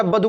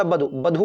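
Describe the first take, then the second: First: वधु as "ba-du", weak d; wrong form. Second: वधु ending in a breathed "dhoo"; correct form. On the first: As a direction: say वधु with an unaspirated d and short u. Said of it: "कोई शब्द नहीं होता". (गलत वधु, "बदु" जैसा) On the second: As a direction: say वधु with aspirated dh and longer oo. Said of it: "होता है". (सही वधु, "वधू" जैसा लंबा ऊ) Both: Shown as a demonstration.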